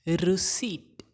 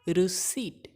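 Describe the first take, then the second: No difference in how they are said.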